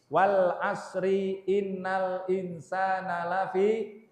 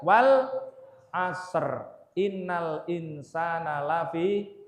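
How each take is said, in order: First: Asr ends with a vowel, joined to the next word. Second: Asr ends without a vowel, stopped before the next word. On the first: The speaker calls it wrong. "Biasanya dibaca begini. ... Itu tidak pas" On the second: The speaker calls it right. "Bacanya yang tepat adalah"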